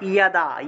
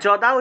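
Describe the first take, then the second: First: The word begins with a y sound. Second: The word begins with a j sound. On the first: This is the Sanskrit pronunciation. The speaker calls it right. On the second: This is the Bengali pronunciation. The speaker calls it wrong. "যদা উচ্চারণ না করে"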